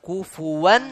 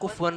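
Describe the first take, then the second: First: The f is followed by a short u vowel. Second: The f is followed directly by w, no vowel. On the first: The speaker calls it right. "സുക്കൂൻ അല്ല, ദമ്മാണ്" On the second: The speaker calls it wrong. "ഫായിന് സുക്കൂൻ ഇട്ടാണ് ഓതണത്"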